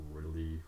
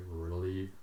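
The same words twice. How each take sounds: The two takes are said the same way.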